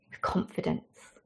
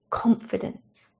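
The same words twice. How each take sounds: First: Hushed. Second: Slow whisper. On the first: Preacher drops to emphatic hush. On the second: Repeats word, slower and hushed. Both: Acted.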